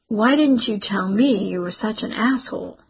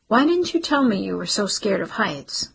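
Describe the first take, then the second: First: "didn't" hit hard, falling end; bitter echo with "didn't" stressed. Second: "you" leaned on, falling end; "you" stressed, the question falls. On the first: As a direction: punch "didn't" in "Why didn't you tell me". Cece fires his question back. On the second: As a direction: put the weight on "you" in "Why didn't you tell me". Garrett asks, stress on you. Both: Acted.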